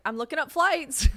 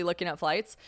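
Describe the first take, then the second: First: High, louder, jokey singsong announcement; playful mock announcement; joking. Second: Said in the usual way. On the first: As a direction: toss it out high as a joke. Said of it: "I'll just, like, jokingly be like". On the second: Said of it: "But I really was".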